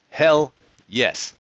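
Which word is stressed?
Hell. The stress falls on the word hell. Hell is what the speaker believes in. The speaker calls it right. "Heaven, I'm not so sure about, but hell yes"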